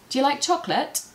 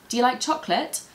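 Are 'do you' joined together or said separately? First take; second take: joined; joined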